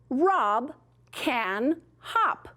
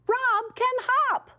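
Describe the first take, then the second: First: It is said in a calm, plain voice. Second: It is said in an excited, lively voice. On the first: It simply states a fact. "write it with a telling mark, a period" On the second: The speaker is thrilled about the fact. "if I am super excited about it, I can say it this way"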